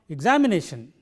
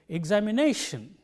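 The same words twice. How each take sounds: First: The stress is not on the fourth syllable. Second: The stress is on the fourth syllable. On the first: The speaker calls it wrong. "It is not" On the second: The speaker calls it right. "but it is"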